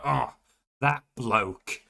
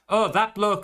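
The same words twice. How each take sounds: First: It is said in an annoyed, fed-up tone. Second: It is said in a flat, neutral tone. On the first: The speaker is fed up with this person. ""Oh, I'm done."" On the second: The speaker is simply pointing someone out. "sometimes it's just neutral"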